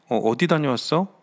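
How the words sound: It sounds innocent and warmly interested.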